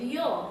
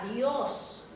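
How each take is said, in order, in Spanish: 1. La S final es débil o se omite. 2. La S final se pronuncia claramente. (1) "No puedo decir" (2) "tengo que asentar bien a es"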